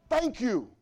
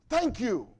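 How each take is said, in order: Both takes have the same delivery.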